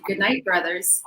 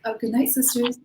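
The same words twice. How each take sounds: First: Slow, measured, courteous goodnight; friendly greeting. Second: Higher, mildly taken-aback greeting; imitated respectful reply. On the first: Retold or imitated. Woman greeting catcallers as brothers, slow and even. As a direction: greet them evenly and familiarly, retold. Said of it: "I said to them in Arabic". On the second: Catcallers answering the woman as sisters, higher and polite. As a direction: imitate men suddenly turning polite. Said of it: "and were like".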